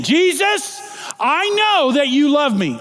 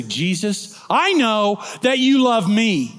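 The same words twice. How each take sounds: First: Jesus called out high, then a loud proclamation; proclaimed louder. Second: Said in the usual way. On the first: Shown as a demonstration. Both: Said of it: "I'm gonna say it again".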